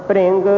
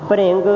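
No difference in how they are said.

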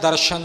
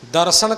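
First: The middle consonant is a sh sound. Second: The middle consonant is an s sound. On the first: The speaker calls it wrong. "ਦਰਸ਼ਨ ਨਹੀਂ" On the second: The speaker calls it right. "ਦਰਸ਼ਨ ਕਰਨਾ ਹੈ"

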